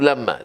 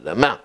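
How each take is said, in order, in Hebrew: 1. המבטא על ההברה הראשונה. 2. המבטא על ההברה האחרונה. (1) "לא למה" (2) "רפויה ומלרע"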